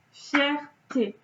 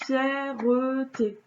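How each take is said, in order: First: "Fierté" said fjɛʀ-te in two syllables. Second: Slow "fierté" with an added middle e, fjɛʀəte; wrong three syllables. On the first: Teacher counting syllables of "Fierté" for pupils. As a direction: say "Fierté" in two beats, no middle e. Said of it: "Vous dites pas fierté". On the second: Teacher shows pupils the wrong "fierté". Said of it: "Vous dites pas". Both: Shown as a demonstration.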